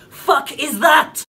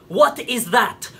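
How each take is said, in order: First: Slow, loud, higher shout of disbelief; indignant yell, word by word; outraged shout. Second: Slow, spaced-out incredulous question; slowly, with mounting outrage; slow indignation. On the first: Outrage peaks at the name. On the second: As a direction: draw out each word in disbelief. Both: Acted.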